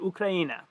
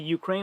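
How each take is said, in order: First: The name ends with an added final 'a' vowel. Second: The name ends on the 'n' with no final vowel. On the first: The speaker calls it right. "I'll say Ukraina" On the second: The speaker calls it wrong. "I won't say Ukraine"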